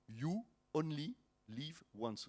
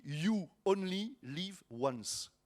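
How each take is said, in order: First: Softer, slow English accent, word by word; showing off English accent. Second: Slow English phrase in a French accent. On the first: Pastor showing the congregation his accent, careful softened English. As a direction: separate each English word, softly displaying the accent. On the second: Pastor explaining the yolo acronym, French-accented English. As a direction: say the English slowly, as a French speaker. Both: Shown as a demonstration. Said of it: "Vous avez vu mon ang-, mon, mon accent".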